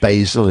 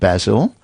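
First: It is said the American way. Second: It is said the British way.

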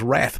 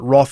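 First: The vowel is an 'a' sound. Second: The vowel is an 'o' sound. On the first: "I thought the Macquarie was saying that the Australian standard was wrath, but it isn't" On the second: "a little A backwards actually is the sound O. So the Macquarie says that wrath is the standard Australian pronunciation"

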